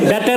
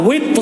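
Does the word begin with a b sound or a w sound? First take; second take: b sound; w sound. First: The word begins with a b sound. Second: The word begins with a w sound. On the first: The speaker calls it wrong. "বেতের না" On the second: The speaker calls it right. "এটা আমাদের দেশের ইমাম সাহেবরা ভুল বলে"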